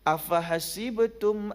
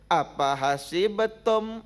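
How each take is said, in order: First: The word is said with an F sound. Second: The word is said with a P sound. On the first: The speaker calls it right. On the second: The speaker calls it wrong.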